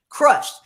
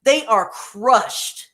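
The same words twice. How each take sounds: First: "crushed." echoed alone, higher and louder, falling; "crushed." repeated, pitched up and louder; repeated for emphasis. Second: "They are crushed" drawn out very slowly; "crushed" leaned on at half speed; slow, emphatic "crushed". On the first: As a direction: punch "crushed." once more on its own. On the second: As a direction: spell out the hurt, slowly and heavily. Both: Shown as a demonstration. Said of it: "Did you hear the sorrow".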